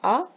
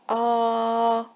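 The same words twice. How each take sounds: First: The vowel is short. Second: The vowel is held long. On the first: "al-fatha et cela donne à l'oral le son A" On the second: "le son A mais prolongé"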